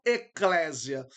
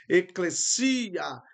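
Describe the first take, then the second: First: Eclésia with an open stressed é, slow with a rising tune; wrong pronunciation. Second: Eclesia, very slow, stress on the final syllable; correct pronunciation. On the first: Teacher contrasts the wrong eclésia for the class. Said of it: "essa seria a forma correta de pronunciar e não". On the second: Teacher repeats eclesia slowly for the students. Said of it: "a sílaba tônica fica no final da palavra". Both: Shown as a demonstration.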